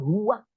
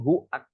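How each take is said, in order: First: A w sound links the two vowels. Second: No w sound links the two vowels. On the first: The speaker calls it wrong. "Bukan huwak" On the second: The speaker calls it right. "tapi huak"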